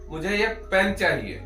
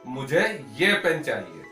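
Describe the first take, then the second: First: The stress is on the word pen. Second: The stress is on the word ये. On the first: It answers what is wanted. "आपको अ, क्या चाहिए?" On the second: It answers which pen is wanted. "किसी ने पूछा भाई आपको कौन सा पेन चाहिए"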